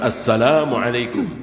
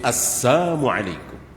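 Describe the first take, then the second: First: The greeting has an L sound after 'assa'. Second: The greeting has no L sound after 'assa'. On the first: It wishes peace upon the listener. "Bukan Assalamualaikum" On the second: It wishes death and ruin upon the listener. "tapi Assalamualaikum. ... Ini assal. Artinya apa? Celaka, mati, binasa"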